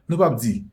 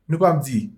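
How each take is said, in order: Both takes have the same delivery.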